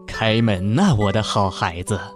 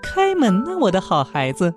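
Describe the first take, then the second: First: The voice is rough and hoarse. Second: The voice is thin and high.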